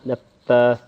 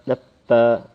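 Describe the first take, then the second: First: The f sound is quick and clipped. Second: The f sound is quick and clipped.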